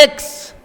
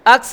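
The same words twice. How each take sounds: First: एक्स said "eks", slow, starting on e; the correct "eks" for X; right way, eks. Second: अक्स said with a flat "a", as "aks"; the rejected "aks" for X; wrong way, aks. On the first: Teacher models the correct eks slowly. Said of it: "ये होता है एक्स". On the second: Teacher shows pupils the mistaken aks. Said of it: "अक्स नहीं होता है". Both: Shown as a demonstration.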